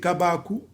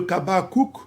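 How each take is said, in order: First: The name ends on a vowel, no k. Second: The name ends with a pronounced k sound. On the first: The speaker calls it right. "la consonne finale en paléo-hébreu ne se prononce pas" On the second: The speaker calls it wrong. "au lieu de Kabakouk"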